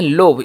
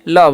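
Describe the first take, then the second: First: It has an 'oh' vowel and ends in 'bh'. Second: It has a short 'uh' vowel and ends in 'v'. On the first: The speaker calls it wrong. "लोभ नहीं पढ़ना है" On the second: The speaker calls it right. "सिर्फ लव पढ़ना है"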